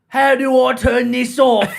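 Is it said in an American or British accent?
British. It is said in a British accent.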